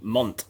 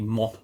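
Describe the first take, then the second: First: The final T is clearly pronounced. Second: The final T is left silent. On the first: It follows Italian pronunciation. "wouldn't they pronounce the T? ... wouldn't it be mont in Italian?" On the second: It follows French pronunciation. "so in French it would be mo"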